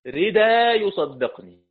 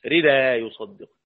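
First: Slow, louder recitation of "ردا يصدقني" ending on a long alif; recited Quranic reading. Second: Said in the usual way. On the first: Shown as a demonstration. Teacher recites Abu Jafar's reading of "ردا" to students. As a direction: chant "ردا" slowly with a long alif instead of tanween. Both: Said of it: "أبو جعفر بهذا الألف العوض عن التنوين".

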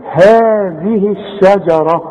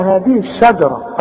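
First: Slow هذه الشجرة, drawn-out HAA, thin SHA; two-count elongation. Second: هذه الشجرة quicker, with a dark SHA; wrong heavy shin. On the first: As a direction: stretch هذه, keep the ش of الشجرة light. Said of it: "عشان تمدها حركتين". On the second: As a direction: thicken the A after ش in الشجرة. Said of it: "وما تقولش بقى". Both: Shown as a demonstration.

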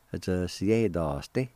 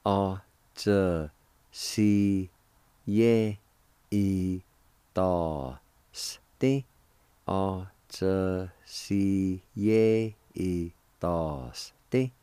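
First: Said in the usual way. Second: Slow, separated syllables with pauses. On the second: Shown as a demonstration. Teacher showing learners the word jaunt, syllable by syllable. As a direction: sound out each syllable slowly on its own. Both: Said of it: "It is pronounced like this".

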